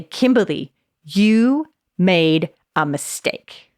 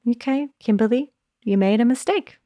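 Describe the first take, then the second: First: Slow, stern scolding; a disappointed scold to yourself; harsh tone. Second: Light, kind take on a mistake; gentle tone. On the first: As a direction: drag it out like a reproach. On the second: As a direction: say it like a kind friend would. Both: Shown as a demonstration. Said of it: "Same words, massive in different tone".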